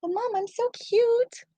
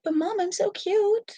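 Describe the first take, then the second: First: Very high, slow cutesy dog voice; slow squeaky puppy plea; voicing the dog, drawn out. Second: Very high cutesy dog voice; squeaky begging puppy voice; voicing the dog. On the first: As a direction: stretch the plea out even sweeter. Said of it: "that's exactly what she's thinking". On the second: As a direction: beg like an adorable pup. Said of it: "She's like".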